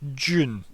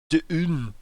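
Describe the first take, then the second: First: The word starts with a J sound. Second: The word starts with a clear D sound. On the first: This is the speaker's natural pronunciation. "what I would like to say, which is June, is how I would pronounce it" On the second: This is a deliberately careful pronunciation. "I always have to like re-enunciate and say Dune"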